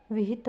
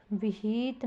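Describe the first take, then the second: First: Said in the usual way. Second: विहित said as "viheet"; wrong long vowel. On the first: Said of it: "विहित होता है". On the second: Shown as a demonstration. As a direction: draw out the second i in विहित. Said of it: "विहित नहीं होता". (विहित को "विहीत" बोलते हुए)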